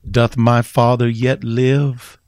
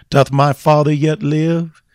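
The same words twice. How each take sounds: First: Slow, tender question, hardly lifted from the telling; a touch of Joseph's plea. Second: High, loud ringing question to the church; preached cry. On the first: Retold or imitated. Joseph asking his brothers about his father, slow and gentle. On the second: Acted. Preacher crying the question to his congregation, high and loud. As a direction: cry it out as the sermon's refrain.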